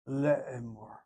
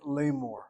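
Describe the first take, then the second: First: The word has three syllables, le-e-mor. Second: The word has two syllables, la-mor. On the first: This is the modern Israeli form. "And so it is Le'emor" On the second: This is the biblical form. "the biblical way of saying it"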